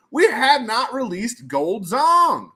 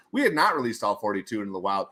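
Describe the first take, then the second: First: "Gold Zong" high, loud and drawn out; slow build to a ringing "Gold Zong"; dramatic reveal. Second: Said in the usual way. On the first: Real, not acted. Big reveal of missing card.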